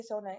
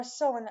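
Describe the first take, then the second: First: "Sone" in two syllables, ending in "-nay"; Spanish-style pronunciation. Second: "Son" said the other fans' way, without the "-ay" ending; alternative pronunciation. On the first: Fan explaining their own habit, "Sone" said Spanish-style as "so-nay". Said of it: "like Spanish". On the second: Fan offering the other name for fans, "Son" without "-ay". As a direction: say "Son" with no final "ay" sound. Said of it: "I say Sone". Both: Shown as a demonstration.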